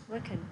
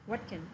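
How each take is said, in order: First: The words run together with a weak 'can'. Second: The words run together with a weak 'can'.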